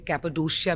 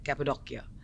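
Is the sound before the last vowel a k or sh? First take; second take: sh; k. First: The sound before the ending is sh. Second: The sound before the ending is k. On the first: Some people say it this way. "कोई कोई लोग उसे कैपेडोशिया भी बोलते हैं" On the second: Local people say it this way. "Locals उसे ऐसे बुलाते हैं"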